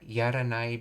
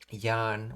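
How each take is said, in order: First: The word is said in full, three syllables. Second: The word is contracted to one syllable. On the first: "yaranai becomes yan" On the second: "you drop the raw and you add the n"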